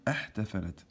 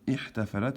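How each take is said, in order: First: The word begins with an 'a' vowel. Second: The word begins with an 'i' vowel. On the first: The speaker calls it wrong. "on va pas dire ahtafalat" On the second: The speaker calls it right. "on va dire ihtafalat"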